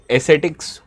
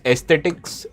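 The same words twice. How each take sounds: First: Ascetics said as "es-SET-iks"; only an s sound in the middle of ascetics, no t after it; second pronunciation attempt. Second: Ascetics mispronounced as "es-TET-iks"; unsure pronunciation. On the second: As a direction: slip a t after the first s in ascetics. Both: Real, not acted. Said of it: "whatever it is pronounced".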